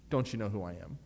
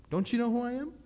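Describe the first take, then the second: First: "Don't you know who I am?" low, punching Don't; lower, grumbling version; low take. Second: "Don't you know who I am?" with you pitched high and rising; high outraged take. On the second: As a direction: squeal it in mock outrage. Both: Shown as a demonstration.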